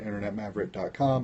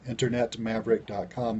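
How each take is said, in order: First: It is said quickly. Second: It is said slowly and clearly.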